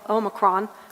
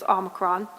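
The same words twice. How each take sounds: First: It is said the international way. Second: It is said the American way. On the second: "the American way"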